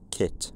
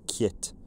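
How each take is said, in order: First: The first consonant is plain, without a y-glide. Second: The first consonant is palatalized, with a y-glide. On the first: This is the usual English way to say the name. "rather than" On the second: This is how an Irish speaker said the name. "the Irish First A D regularly referred to one of the lead cast as"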